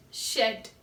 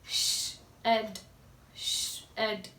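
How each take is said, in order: First: Said in the usual way. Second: "Shed" said low and soft with a long sh; teacher modelling quietly; soft drawn-out shed. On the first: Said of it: "sound of D". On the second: Shown as a demonstration. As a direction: breathe the sh out softly before "Shed". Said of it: "what is the sound of D".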